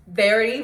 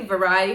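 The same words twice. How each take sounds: First: "Verity" said VER-i-tee, three syllables, stress on VER; "Verity" with a short e, like verify. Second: "Variety" said va-RYE-e-tee, four syllables, stress on RYE; "Variety" like the word variety. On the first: Naming the book title, the first way: "Verity" as VER-i-tee. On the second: Offering a second way to say the title: "Variety" as va-RYE-e-tee. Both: Shown as a demonstration. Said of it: "however you call it".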